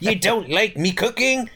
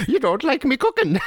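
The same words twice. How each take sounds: First: Irish brogue, pitched up; a comic Irish old man; leprechaun. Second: Higher Irish lilt through a laugh; leprechaun. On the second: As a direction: mimic the brogue while laughing. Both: Retold or imitated. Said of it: "You made him sound like Leprechaun there".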